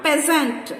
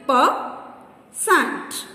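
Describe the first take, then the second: First: Said in the usual way. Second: "Peasant" in two beats, Pea, sant; long pause in the middle of "Peasant"; syllable by syllable. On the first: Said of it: "Divide each word". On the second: Shown as a demonstration. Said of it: "Two syllables".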